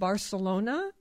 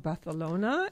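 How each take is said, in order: First: Barcelona is said in the speaker's usual pronunciation. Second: Barcelona is said imitating another person's pronunciation.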